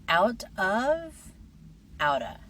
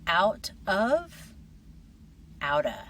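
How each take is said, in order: No difference in how they are said.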